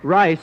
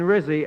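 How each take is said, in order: First: The first vowel sounds like 'eye'. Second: The first vowel sounds like 'ih'. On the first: "I mean Rizzy" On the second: "excuse me, I mean Risa"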